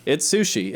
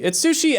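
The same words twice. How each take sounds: First: Said in the usual way. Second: Sushi jumps high on the second go; It's sushi, pitched up high and bright; excited repeat. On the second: Shown as a demonstration. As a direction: say It's sushi again, much higher.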